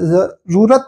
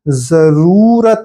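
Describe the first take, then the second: First: The vowel after r is short. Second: The vowel after r is long. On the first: The speaker calls it wrong. "जरूरत नहीं होता है" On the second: The speaker calls it right. "इसमें र बड़ा होना चाहिए। जरूरत होता है"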